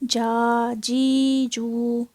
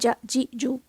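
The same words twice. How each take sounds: First: The vowels are stretched out long. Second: The vowels are cut off abruptly. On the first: "इसको हमने जा जी जू ऐसे नहीं पढ़ना" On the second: "एकदम से झटके से झटके से नहीं पढ़ना"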